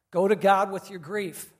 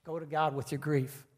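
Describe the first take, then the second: First: Louder, stressing each word of "Go to God with your grief"; louder emphatic repeat. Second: Said in the usual way. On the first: Shown as a demonstration. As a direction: drive the message home. Repeating the key message louder.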